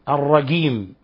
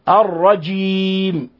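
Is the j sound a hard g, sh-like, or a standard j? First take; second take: hard g; standard j. First: The j is pronounced as a hard g. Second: The j is pronounced as a full standard j. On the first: The speaker calls it wrong. "إخواننا في مصر يقولون مثلا الجيم يقلبونها جيم" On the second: The speaker calls it right. "إنما يوجد جيم"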